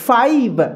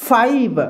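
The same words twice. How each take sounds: Both takes have the same delivery.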